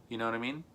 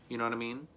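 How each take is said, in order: The two takes are said the same way.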